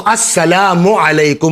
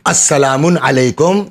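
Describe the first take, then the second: First: The first word ends in a plain 'u'. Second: The first word ends in 'un', adding an n. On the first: The speaker calls it right. "तो अस्सलामु अलैकुम होगा" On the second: The speaker calls it wrong. "ये रॉन्ग है"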